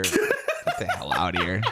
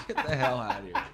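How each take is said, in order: First: Slow, laughing through the words; laughing disbelief. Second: Higher and softer, breaking into laughter; softer laughing repeat. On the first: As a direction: drag it out while cracking up. Laughing at a gross joke. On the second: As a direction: toss it off again, giggling. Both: Real, not acted.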